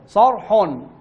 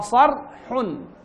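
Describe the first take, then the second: First: The heaviness of the r spreads to the following sounds. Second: Only the r is heavy; the following sounds stay light. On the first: The speaker calls it wrong. "نقرأ خطأ" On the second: The speaker calls it right. "نقرأ صر حن"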